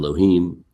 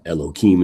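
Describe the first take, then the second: First: The middle consonant is an h sound. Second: The middle consonant is a k sound. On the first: The holy name is said as it is. "instead of" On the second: The holy name is avoided out of respect. "we kind of hide it by saying"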